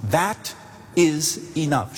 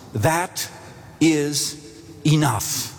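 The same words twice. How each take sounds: First: "That is enough" slowly, stressing "is"; slow it down, lean hard on "is" in "That is enough"; slow emphatic repeat. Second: "that... is... enough" each word set apart by pauses; emphatic reassurance. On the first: Pastor repeats the reassurance. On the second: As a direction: pause between "that", "is" and "enough", leaning on "is". Pastor reassures her emphatically. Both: Acted.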